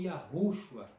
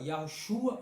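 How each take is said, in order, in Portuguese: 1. A tônica cai na primeira parte, Yahu. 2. A tônica cai na última parte, shua.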